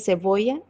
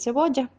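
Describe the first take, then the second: First: The ll is a weak vowel-like glide. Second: The ll is a full palatal consonant. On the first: "la desconsonantización del fonema palatal en cebolla" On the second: "en lugar de cebolla"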